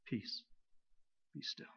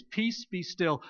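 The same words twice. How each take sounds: First: Near-whisper, much softer and breathy; hushed, to us. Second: Slow, steady and calm, each word given weight; calm command. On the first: Preacher voicing Jesus speaking peace to us, hushed. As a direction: say it gently as if to one frightened person. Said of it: "He's talking to us". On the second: Preacher voicing Jesus to the storm, slow and calm. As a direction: speak peace over the storm, unhurried. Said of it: "he says exactly the same words". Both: Acted.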